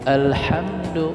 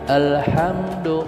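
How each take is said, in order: No difference in how they are said.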